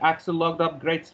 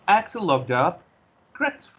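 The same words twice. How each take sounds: First: No pause comes between 'up' and 'Gretz'. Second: A short pause comes between 'up' and 'Gretz'. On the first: The speaker calls it wrong. "You are not going to say Axel logged up grates. No, that's not work" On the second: The speaker calls it right. "Just make a slight pause here and then continue"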